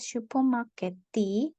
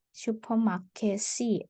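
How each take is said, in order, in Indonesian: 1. Konsonan sebelum vokal terakhir bukan s. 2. Konsonan sebelum vokal terakhir adalah s. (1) "tidak dibaca" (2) "jadi S ya"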